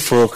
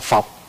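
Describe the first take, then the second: First: The vowel is a gliding diphthong. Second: The vowel is a single plain vowel. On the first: "Chữ phược á" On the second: "ở ngoài Bắc người ta đọc là phọc"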